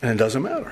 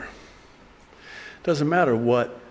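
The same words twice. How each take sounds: First: Said in the usual way. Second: "It doesn't matter what" said very slowly, leaning on "matter"; slow weighty "matter" rising at the end; slow, drawn-out emphasis. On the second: Shown as a demonstration. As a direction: stretch out "matter" and let it hang.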